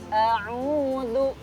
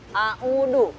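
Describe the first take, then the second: First: The middle consonant is a soft th sound. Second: The middle consonant is a plain d sound. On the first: The letter is read with its dot. The speaker calls it right. "karena ada titiknya, maka cara membacanya adalah" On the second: The letter is read as if it had no dot. The speaker calls it wrong. "kecuali kalau ininya hilang"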